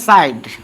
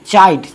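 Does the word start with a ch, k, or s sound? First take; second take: s; ch. First: The word starts with an s sound. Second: The word starts with a ch sound. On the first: The speaker calls it wrong. "नहीं पढ़ेंगे साइड" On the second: The speaker calls it right. "यहां पर ध्वनि उत्पन्न हो रहा है च का"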